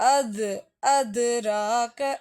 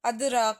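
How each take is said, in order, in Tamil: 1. d ஒலி குறுகிய எதிரொலியுடன் குதித்து வருகிறது. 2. d ஒலி சாதாரணமாக உள்ளது, எந்த எதிரொலியும் இல்லை. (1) "இங்கே அசைக்கணும்" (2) "நார்மலாக அது ராக்க அப்படின்னு சொல்கிறதுக்கு பதிலாக"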